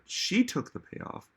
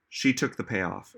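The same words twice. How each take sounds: First: "she" stressed, pitched much higher; high-pitched emphasis on "she". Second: Said in the usual way. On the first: Real, not acted. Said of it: "I'm literally saying she did".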